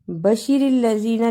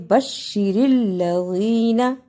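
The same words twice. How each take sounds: First: बशीरिल लज़ीना rushed, with a single short sh; wrong reading. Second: बशीरिल लज़ीना with a doubled, held sh; correct reading. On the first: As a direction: read बशीरिल लज़ीना quickly without doubling the sh. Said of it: "नहीं पढ़ा". (बशीरिल लज़ीना, बिना तशदीद के जल्दी में) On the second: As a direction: lean on the sh and draw out the ī in बशीरिल लज़ीना. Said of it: "बल्कि". (बशीरिल लज़ीना, तशदीद और खिंचाव के साथ) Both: Shown as a demonstration.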